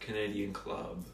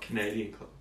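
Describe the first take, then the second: First: The stress is on the word club. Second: The stress is on the word Canadian. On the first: "Emphasis on the club" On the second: "not the Canadian"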